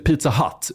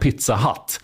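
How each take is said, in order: First: The last word sounds like English 'hut'. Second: The last word sounds like Swedish 'hatt'. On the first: It names the American pizza chain. "det är inte Pizza Hut" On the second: It names a local pizzeria called 'Hat'. "utan Pizza Hut. ... Pizza H-A-T-T"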